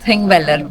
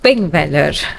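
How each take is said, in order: First: The name begins with a th sound. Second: The name begins with a p sound. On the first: The speaker calls it right. "But pronounced as" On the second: The speaker calls it wrong. "ಅದನ್ನ ನೋಡಿದ್ರೆ it is"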